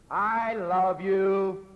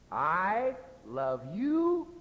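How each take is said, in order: First: It is said in an impatient, exasperated tone. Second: It is said in a sarcastic, insincere tone. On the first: The speaker wants the listener to stop nagging. "Which means, stop nagging me" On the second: The speaker means the opposite of the words. "my meaning is the exact opposite of the words"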